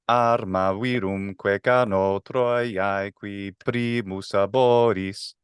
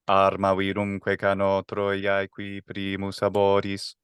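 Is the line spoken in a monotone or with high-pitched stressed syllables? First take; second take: high-pitched stresses; monotone. First: Each stressed syllable jumps up to a higher pitch. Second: It is spoken on one flat, unchanging pitch. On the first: "if I try to make each stress accent into a musical note, like a higher musical note" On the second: "if it's monotone"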